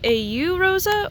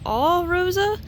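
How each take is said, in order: First: The first part is spoken as two separate letters. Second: The first part is spoken as one word, all. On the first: "I'm not sure how you pronounce it" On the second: "or the All Rosa"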